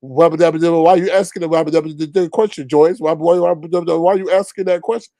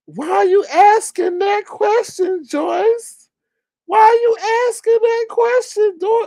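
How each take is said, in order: First: Rapid sputtering nonsense-filled babble; Daffy Duck. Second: Very high squeaky mocking voice; Daffy Duck. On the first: Retold or imitated. Panelist scolds Joyce for asking, babbling cartoon impression. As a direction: jabber the question through cartoon gibberish at natural pitch. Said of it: "in the Daffy Duck voice". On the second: Panelist scolds Joyce for asking, squeaky mocking impression. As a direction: squeal the question in falsetto, stretched out. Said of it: "here comes Daffy Duck".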